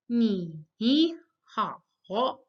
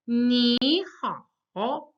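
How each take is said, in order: First: "ni, ni, ha, ho" as two separate dips, each rising back; two third tones. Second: "ni" rising straight up, "ha, ho" dipping then rising; second tone, then third. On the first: Teacher shows the mistake, "ni, ni, ha, ho" both fully dipped. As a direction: dip and climb on "ni, ni", then on "ha, ho". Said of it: "you can't say". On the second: Teacher shows the correct greeting, rising "ni" before dipping "ha, ho". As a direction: lift "ni", then dip and climb on "ha, ho". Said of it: "first third tone becomes the second". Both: Shown as a demonstration.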